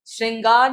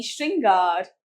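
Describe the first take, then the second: First: श्रृंगार with s for sh, 'sringaar'; mispronounced word. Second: श्रृंगार as 'shringaar'; correct pronunciation. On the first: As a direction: soften the opening sh of श्रृंगार to s. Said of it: "नहीं". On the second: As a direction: open श्रृंगार on shr. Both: Shown as a demonstration.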